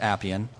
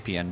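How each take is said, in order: First: The first vowel is like the one in 'apples'. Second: The first vowel is unlike the one in 'apples'. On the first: The speaker calls it right. "but it is Appian, like apples" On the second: The speaker calls it wrong. "some people have some trouble and say Appian"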